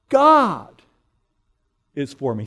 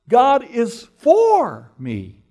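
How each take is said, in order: First: The word 'God' is stressed. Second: The word 'for' is stressed. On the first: It is God himself who is on my side. "You put the emphasis on each word in turn. So first you say" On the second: God actively supports me rather than opposing me. "He actually is interested and active in my life"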